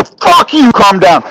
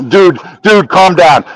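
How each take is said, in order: First: High, explosive retort, then dropping; retold furious fit. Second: Said in the usual way. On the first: Retelling his retort when told to calm down, angry and high. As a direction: throw the words back in mock fury. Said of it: "I was throwing a fit".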